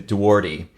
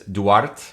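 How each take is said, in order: First: The name has an American English pronunciation. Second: The name has a Portuguese pronunciation. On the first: This is the form the family adapted in America. "my family in Americanized it to" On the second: This is the original form in the source language. "if you're going to say it in Portuguese"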